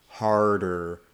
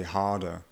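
First: "harder" slowly with clearly sounded R's; harder, Maine R's. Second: "harder" with both R's skipped, like "hahda"; harder without R's. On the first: Coach showing northern speech, "harder" with clear R's. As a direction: say "harder" with clear but milder American R's. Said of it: "they'll still pronounce them harder". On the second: Coach imitating somebody from England, "harder" with no R's sounded. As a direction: say "harder" the English way, dropping the R's. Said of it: "might not pronounce those R's at all". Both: Shown as a demonstration.

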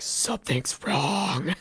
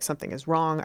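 First: Slow, drawn-out mock distress; mock alarm. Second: Said in the usual way. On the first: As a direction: stretch out WRONG in pretend suffering. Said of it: "being pretty calm for, like, somebody who's like". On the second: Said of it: "actually being pretty calm".

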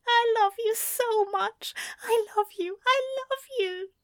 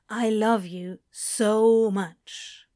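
First: High, tearful angel voice; crying angel. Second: Said in the usual way. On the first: A narrator's reading. Crying angel declares love on Crowley's shoulder, high and tearful. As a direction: weep the words into his shoulder. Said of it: "crying openly on his shoulder".

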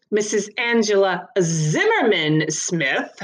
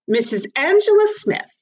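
First: Slow correction leaning hard on "Zimmerman"; pointed correction. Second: High, clipped-off reading of "Missus Angela Smith" with no middle name; officious magistrate reading a name. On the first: Gibbons corrects the magistrate's reading, stressing "Zimmerman". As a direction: spell out "Zimmerman" deliberately, slowly. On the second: Magistrate misreads the defendant's name, high and brisk. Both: A narrator's reading. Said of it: "Mister Gibbons corrected".

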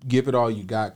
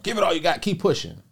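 First: Said in the usual way. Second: High, loud mock pep talk; motivational hype. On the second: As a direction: imitate a motivational speaker urging people on. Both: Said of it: "most people be motivational".

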